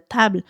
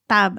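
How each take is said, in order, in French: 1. Le son de la consonne finale est prononcé. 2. Le son de la consonne finale est supprimé.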